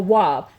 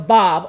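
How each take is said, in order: First: The word begins with a W sound. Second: The word begins with a V sound. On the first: "W A W" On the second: "V or the V A V"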